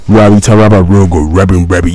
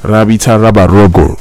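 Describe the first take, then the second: First: Low-pitched put-on imitation; imitating deeper voice. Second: Lower-pitched imitation, not quite deep enough; imitating deep voice. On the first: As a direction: push the voice down low. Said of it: "my voice is not even deep enough". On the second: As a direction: mimic the caller's low voice. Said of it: "love the way he was saying it".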